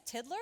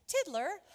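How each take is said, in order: First: Said in the usual way. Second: Higher, louder questioning call; teacher calling with more urgency; insistent roll call. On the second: Acted. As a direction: call out for a missing pupil. Teacher calls missing pupil, second time.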